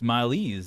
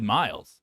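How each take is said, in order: First: The final e is sounded as a syllable. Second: The final e is silent. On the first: The speaker calls it right. "It's milese" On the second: The speaker calls it wrong. "You didn't pronounce miles correctly"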